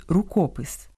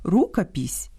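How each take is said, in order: First: «рукопис» stressed on the middle syllable, КО; Ukrainian stress. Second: «рукопись» stressed on the first syllable, РУ; Russian stress. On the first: Host giving the Ukrainian noun, middle stress. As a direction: land on КО in «рукопис». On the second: Host contrasting similar nouns, Russian first-syllable stress. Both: Shown as a demonstration. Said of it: "По-різному слід наголошувати".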